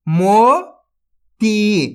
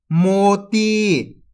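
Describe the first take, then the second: First: मोती drawn out very slowly, syllable by syllable; sounded out slowly. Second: Said in the usual way. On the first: Shown as a demonstration. Teacher sounds out a word for young readers, very slowly. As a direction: pull मोती apart slowly. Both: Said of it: "तो मिलके बन जाएगा".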